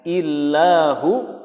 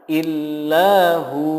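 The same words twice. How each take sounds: First: The final vowel is cut short. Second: The final vowel is held long. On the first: The speaker calls it wrong. "Tidak boleh membacanya dengan illahu pendek" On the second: The speaker calls it right. "yang benar adalah illahu"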